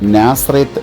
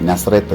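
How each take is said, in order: First: The first vowel of the name is long. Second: The first vowel of the name is short. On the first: The speaker calls it right. "അവിടെ നാസറേത്ത് എന്നാണ് ഉച്ചരിക്കുന്നത്" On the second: The speaker calls it wrong. "നസറേത്ത് എന്നല്ല"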